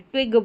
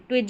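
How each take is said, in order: First: The word ends with a hard g sound. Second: The word ends with a j sound. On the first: The speaker calls it right. "जी को ग पढ़ेंगे, ट्विग बोलेंगे" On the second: The speaker calls it wrong. "ट्विज नहीं बोलेंगे"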